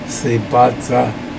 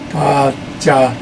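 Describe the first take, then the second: First: The middle consonant is a sharp 'dz' sound. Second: The middle consonant is a softer 'j' sound. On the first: "it's more, far more highly percussive" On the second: "than if you did"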